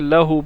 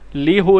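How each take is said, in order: First: The first syllable has an 'a' vowel. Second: The first syllable has an 'ee' vowel. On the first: The speaker calls it right. "बल्कि लहू पढ़ते हैं" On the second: The speaker calls it wrong. "ली हु नहीं पढ़ते"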